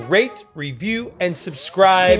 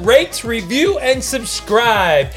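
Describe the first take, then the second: First: It is said with ordinary, lower energy. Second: It is said with more energy.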